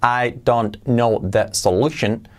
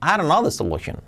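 First: Each word is said separately and carefully. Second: The words are run together with natural intonation. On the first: The speaker calls it wrong. "incluso bien pronunciado" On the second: The speaker calls it right. "Tenemos que unir las palabras y luego dar esa entonación"

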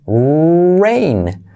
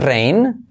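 First: The R has a u-like sound after it. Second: The R has no u-like sound after it. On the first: The speaker calls it right. "pero es rain ... R con U" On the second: The speaker calls it wrong. "puedes decir rain"

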